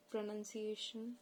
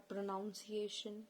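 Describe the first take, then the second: First: Pronunciation with a short "nun" in the middle; standard pronunciation. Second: Pronunciation said with "noun" in the middle; variant pronunciation. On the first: Teacher naming both variants for viewers, standard pronunciation with "nun". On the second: Teacher naming both variants for viewers, pronunciation with "noun" inside. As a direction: say pronunciation as pro-noun-ciation. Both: Shown as a demonstration. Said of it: "people who prefer pronunciation or pronunciation".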